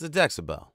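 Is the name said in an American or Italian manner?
American. It is said American-style with no added final vowel. "That's the American way"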